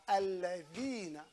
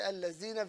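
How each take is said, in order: First: The middle consonant is a soft th sound. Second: The middle consonant is a z sound. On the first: The speaker calls it right. "It's a thal" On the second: The speaker calls it wrong. "There's no zai there"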